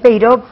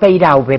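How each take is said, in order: First: The surname is pronounced the French way. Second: The surname is pronounced the Spanish way. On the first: This is the family's original pronunciation. "en realidad es Peiró" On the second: This is the adapted form used day to day. "pero Peiraube, porque no todo el mundo tiene por qué saber francés"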